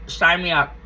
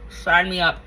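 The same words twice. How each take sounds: The two takes are said the same way.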